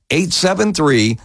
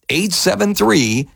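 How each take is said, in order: Both takes have the same delivery.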